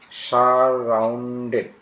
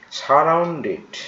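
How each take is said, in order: First: সারাউন্ডেড drawn out slowly in separate syllables; teacher's slow, split-up সারাউন্ডেড. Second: Said in the usual way. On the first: Shown as a demonstration. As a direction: break সারাউন্ডেড into stretched sar-roun-ded. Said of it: "এভাবে উচ্চারণগুলো তোমরা করবে". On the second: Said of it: "বড় উচ্চারণ পেলে ভেঙে ভেঙে করবে".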